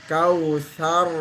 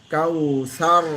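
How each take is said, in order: The two takes are said the same way.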